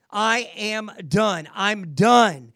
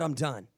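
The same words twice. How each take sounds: First: Slow, emphatic I'M DONE, louder on the last; yelled declaration. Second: Said in the usual way. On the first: Shown as a demonstration. Coach showing officer how to surrender, yelling it out. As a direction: declare it out loud, each word drawn out. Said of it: "yell out loud, I'm done". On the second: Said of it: "want you to yell out loud".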